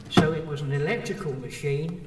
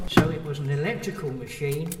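No difference in how they are said.

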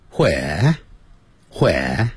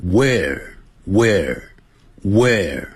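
First: "where" as hweh, h puff and no r; slow "where" with breathy h, r dropped; British "where". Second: "where" as wair, ending on a curled-tongue R; slow, repeated "where" with strong final R; American retroflex R. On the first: Teacher shows British English to students, "where" without the r. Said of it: "英式英语念成". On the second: Teacher stresses American R for students, "where" curled at the end. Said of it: "美式英语很注重R的卷舌音". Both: Shown as a demonstration.

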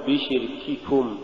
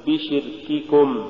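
First: بشرككم with both ك over-breathed, softer overall; weak kaf. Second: Said in the usual way. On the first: Shown as a demonstration. Teacher showing what not to say, airy kaf in بشرككم. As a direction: let air leak from each ك in بشرككم. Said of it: "ولا تقل". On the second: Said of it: "قل".

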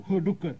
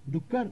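First: "डुक्कर" falling, at normal pitch; confirming answer. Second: "डुक्कर" higher, rising as a question; puzzled echo. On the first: Father answering the child, "डुक्कर" falling in confirmation. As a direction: confirm "डुक्कर" with a settled fall. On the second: Child checking the word with father, "डुक्कर" rising in question. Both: Acted.

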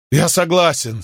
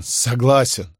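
First: High broken agreement; giving up with a catch in the throat; voice breaking. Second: The word swallowed by a sob; stifled sob. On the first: Defeated shopkeeper accepts Crassus's offer, voice breaking. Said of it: "Голос торговца сорвался". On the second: Shopkeeper repeats his surrender to Crassus, choked sob. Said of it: "мужчина сдавленно всхлипнул". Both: A narrator's reading.

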